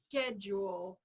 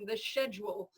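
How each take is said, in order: First: It is said with an American 'sk' sound. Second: It is said with a British pronunciation. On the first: "here in, in America, we pronounce it with like an S K" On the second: "I love the British one"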